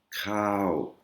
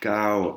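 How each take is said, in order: First: The first consonant has a puff of air. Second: The first consonant has no puff of air. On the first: The speaker calls it right. "vous avez bien entendu le K H" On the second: The speaker calls it wrong. "Si vous dites cow, eh ben, ils vont sûrement pas comprendre"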